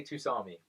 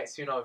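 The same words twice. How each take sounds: First: Tusami minus the n, too-SAR-mee; personal Tusami. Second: Tsunami with the n sounded, soo-NAH-mee; standard tsunami. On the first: Guest holding to his own way, "Tusami" without n. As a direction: stick to "Tusami", no n. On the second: Guest conceding to the hosts, standard "tsunami". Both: Shown as a demonstration. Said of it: "but I say Tusami".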